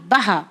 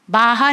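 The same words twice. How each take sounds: First: बहा with a short first "a"; बहा said as ba-haa, not baa-haa; correct short vowel. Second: बाहा with a long first "aa"; बाहा said as baa-haa, long aa; wrong long vowel. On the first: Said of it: "बाहा नहीं है, बहा". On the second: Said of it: "बाहा नहीं है". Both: Shown as a demonstration.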